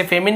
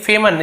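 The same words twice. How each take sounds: First: "फेमिन", short i in the ending instead of schwa; mispronunciation. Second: "फेमन", second syllable a schwa, not "-in"; correct pronunciation. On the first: Teacher warning students off a misreading, mispronounced "फेमिन". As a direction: say "फेमिन" with an "-in" second syllable. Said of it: "इसे फेमिन नहीं पढ़ेंगे". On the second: Teacher showing students how famine is read, correct pronunciation "फेमन". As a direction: say "फेमन" with a short unstressed "-an" ending. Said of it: "फेमन actual pronunciation है इसका". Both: Shown as a demonstration.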